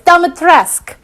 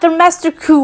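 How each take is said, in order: First: The name ends without an audible 'u' sound. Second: The name ends with an audible 'u' sound. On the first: The speaker calls it right. "You don't pronounce the damn U" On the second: The speaker calls it wrong. "not Domesticu or whatever"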